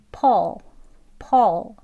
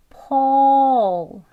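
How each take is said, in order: First: "Paul" short, in one quick syllable; quick version. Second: "Paul" stretched very long and loud; slow demonstration. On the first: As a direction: say "Paul" briskly without stretching. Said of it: "빨리 하면 이렇게 발음되어져요". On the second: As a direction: draw out the vowel of "Paul" into the l. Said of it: "발음 천천히 할 수 있고요". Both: Shown as a demonstration.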